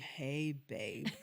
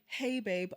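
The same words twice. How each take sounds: First: It sounds cold and argumentative. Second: It sounds warm and friendly. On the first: The reader hears it as still angry. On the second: The sender means it kindly.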